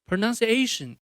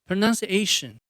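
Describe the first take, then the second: Both takes have the same delivery.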